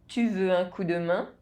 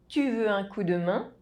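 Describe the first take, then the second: The two takes are said the same way.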